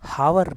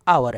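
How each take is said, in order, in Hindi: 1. यह शब्द 'h' ध्वनि से शुरू होता है। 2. यह शब्द स्वर ध्वनि से शुरू होता है। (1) "ये हावर नहीं आवर है" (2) "ये हावर नहीं आवर है"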